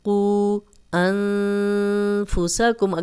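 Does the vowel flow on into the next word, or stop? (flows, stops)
stops. A stop breaks after the first word, vowel short. "अगर सांस टूट गया है, हमने स्टॉप किया है"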